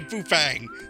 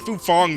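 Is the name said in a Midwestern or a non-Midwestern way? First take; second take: Midwestern; non-Midwestern. First: The name is said with a Midwestern accent. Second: The name is said without a Midwestern accent. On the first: This is how the speaker has been saying it. "I would say Fufang, like a true Midwesterner" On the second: Someone else said it this way. "somebody pronounced it Fufang the other day"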